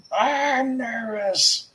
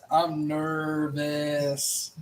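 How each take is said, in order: First: High, slow nervous whine. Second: Slow, drawn-out nervous groan. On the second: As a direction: stretch it out anxiously. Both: Real, not acted.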